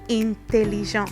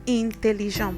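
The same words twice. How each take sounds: No difference in how they are said.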